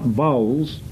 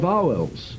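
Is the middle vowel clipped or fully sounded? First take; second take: clipped; full. First: The middle vowel is dropped, like one syllable. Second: The middle vowel is fully sounded. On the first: The speaker calls it wrong. "They are not vowels. V-O-W apostrophe L-S" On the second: The speaker calls it right. "they are vowels. Full weight to all of the vowels"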